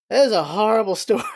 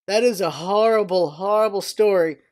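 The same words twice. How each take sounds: First: Quick line broken by a real laugh; laughing through it. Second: Said in the usual way. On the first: Real, not acted. Telling viewers about a horrible story, laughing. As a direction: laugh mid-sentence at the grim story.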